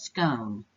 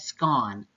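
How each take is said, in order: First: The vowel rhymes with stone. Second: The vowel rhymes with swan.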